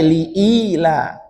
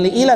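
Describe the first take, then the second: First: The first i vowel is long. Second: The first i vowel is short. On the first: The speaker calls it right. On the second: The speaker calls it wrong.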